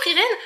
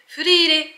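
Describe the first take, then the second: First: The name is said with German-style sounds. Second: The name is said with Japanese-style sounds. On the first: The names feel Germanic to her. "je le dis comme ça" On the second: This is how it is said in Japanese. "en japonais, j'ai donc appris que ça se disait Frire"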